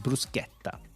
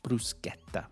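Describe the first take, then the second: First: The word is pronounced in an Italian way. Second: The word is pronounced in an Italian way.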